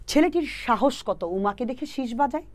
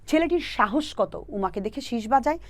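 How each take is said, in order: First: Slow mnemonic recital. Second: Slow mnemonic repeat. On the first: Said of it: "সহজ করে যদি বলি". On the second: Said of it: "আবারও দেখো". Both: Shown as a demonstration.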